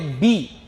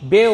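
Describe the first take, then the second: First: The vowel is a high 'ee' sound. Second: The vowel is a mid 'ay' sound. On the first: The speaker calls it right. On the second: The speaker calls it wrong.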